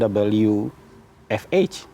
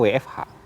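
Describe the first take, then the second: First: The letters are named with English letter names. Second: The letters are named with Indonesian letter names. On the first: This is not how people here normally say it. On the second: This is how people here normally say it. "akronim-akronim asing kita lafalkan dengan Indonesia. Kita kan juga ngomongnya"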